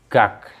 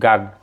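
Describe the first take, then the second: First: The syllable ends with a k sound. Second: The syllable ends with a g sound. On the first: The speaker calls it right. "berarti ini bunyinya adalah gak" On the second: The speaker calls it wrong. "bukan gag"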